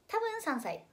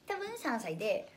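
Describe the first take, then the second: First: High-pitched repeat. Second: Said in the usual way. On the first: Shown as a demonstration. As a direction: jump up high on 多分三歳.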